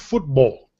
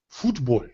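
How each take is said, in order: First: It is said as the English word football. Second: It is said as the Spanish-style word futbol.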